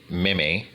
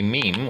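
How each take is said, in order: First: "meme" said in two syllables, MEE-may or MIM-ay; deliberately mispronounced meme. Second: Said in the usual way. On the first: Shown as a demonstration. Speaker joking about the meme, "meme" mispronounced as two syllables. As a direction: mispronounce "meme" with an added "-ay" ending. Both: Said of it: "if you want to mispronounce it".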